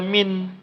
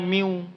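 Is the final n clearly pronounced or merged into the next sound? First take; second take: pronounced; merged. First: The final n is pronounced clearly and separately. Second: The n merges, nasalized, into the following w. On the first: The speaker calls it wrong. "jangan lagi dibaca min" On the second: The speaker calls it right. "tapi cara bacanya miu"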